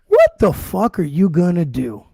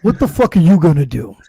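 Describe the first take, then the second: First: Slow, drawn-out challenge; imitated slow, daring provocation; retold taunt. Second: Quicker, firmer challenge thrown back; imitated punchy retort with a little push; retold comeback. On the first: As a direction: act out a deliberate taunt, word by word. Retold challenge from the other guy. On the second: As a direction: act out firing the taunt back.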